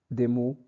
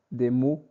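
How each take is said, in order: Both takes have the same delivery.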